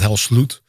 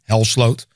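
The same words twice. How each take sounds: First: The second syllable sounds like 'sloot'. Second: The second syllable sounds like 'slowed'. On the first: The speaker calls it wrong. "not Helsloot" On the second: The speaker calls it right. "how people should pronounce my last name"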